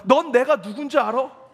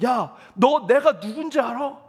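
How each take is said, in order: First: The same line thrown back louder, leaning on 넌; louder mock-angry retort, stress on 넌; angry comeback. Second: A mock angry yell, slowed, each word leaned on; mild mock yell from the other driver; retold yelling driver. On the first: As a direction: imitate the pastor snapping back in anger. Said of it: "화가 나서 같이 이렇게 얘기했습니다". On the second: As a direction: imitate the rude driver shouting down the window. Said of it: "막 소리를 지르면서".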